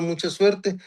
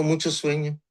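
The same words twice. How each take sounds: First: Said in the usual way. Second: "Mucho sueño" said in place of "mucha suerte", the officer's slip retold lightly; mispronounced wish. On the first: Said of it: "en vez de decirnos". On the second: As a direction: repeat the wrong "Mucho sueño" as a light imitation of the gringo slip. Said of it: "en vez de decirnos, "Mucha suerte".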